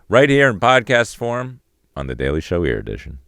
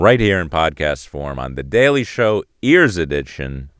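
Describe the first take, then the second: First: The closing line has a smaller, restrained inflection. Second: The closing line has a big, overblown inflection. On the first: The speaker calls it right. "That's what I should I should have got done" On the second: The speaker calls it wrong. "I did the wrong inflection. I went too big"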